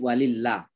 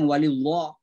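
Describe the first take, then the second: First: The L in Allah sounds light and thin. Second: The L in Allah sounds heavy and thick. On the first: The speaker calls it right. "tapi walillah" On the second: The speaker calls it wrong. "jangan ditebalkan, jangan walillah"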